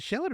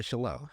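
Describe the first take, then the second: First: Shallot stressed on the first syllable, SHAL-ut; first pronunciation option. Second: Shallot said French-style as shuh-LOH, silent t; second pronunciation option. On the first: Cook asks which way to say it, shallot as SHAL-ut. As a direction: say shallot with a clear final t. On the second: Cook offers the other way, shallot as shuh-LOH. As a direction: stress the end of shallot, like "shallow" with late stress. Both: Shown as a demonstration. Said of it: "is it shallot or shallot".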